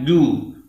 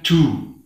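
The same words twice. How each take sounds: First: The j is said clearly without escaping breath. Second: The j is said with breath escaping. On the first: The speaker calls it right. "harus dibaca dengan jahar, dengan jelas" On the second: The speaker calls it wrong. "hembusan angin"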